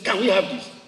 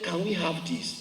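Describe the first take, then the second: First: It is asked harshly, like a demand. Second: It is asked softly and gently.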